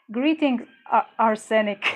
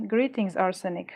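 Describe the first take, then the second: First: Bright greeting. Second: Said in the usual way. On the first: Real, not acted. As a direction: call out a cheery welcome. Welcoming a chat viewer.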